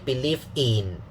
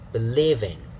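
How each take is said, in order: First: The third syllable is stressed with higher pitch. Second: The third syllable is unstressed with lower pitch. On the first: The speaker calls it wrong. "don't say believe in" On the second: The speaker calls it right. "is better"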